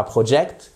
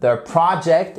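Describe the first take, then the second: First: "project" with a closed French O; mispronunciation to avoid. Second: "project" as PRAH-ject, open first vowel; correct pronunciation. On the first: Teacher shows learners the mistake, mispronounced. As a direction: say "project" wrongly as "pro-ject". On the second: Teacher models the word for learners, careful pronunciation. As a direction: stress the first syllable of "project". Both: Shown as a demonstration. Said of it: "et pas project".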